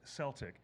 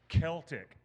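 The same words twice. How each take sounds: First: The word starts with a soft S sound. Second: The word starts with a hard K sound. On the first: The speaker calls it wrong. "is not pronounced Celtic" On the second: The speaker calls it right. "when you have a letter C before any vowel sound, it's a hard K"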